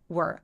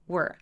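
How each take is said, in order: First: The words are joined into one syllable. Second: The same.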